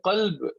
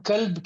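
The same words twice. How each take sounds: First: Full-mouthed q in "قلب"; heavy qaf. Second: "کلب" with a light, thin k; light k and open vowel in "کلب"; thin kaf. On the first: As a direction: start "قلب" from the back of the tongue. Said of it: "یہ موٹا ہے". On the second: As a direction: start "کلب" with a plain k, not q. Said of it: "یہ پتلا ہے". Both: Shown as a demonstration.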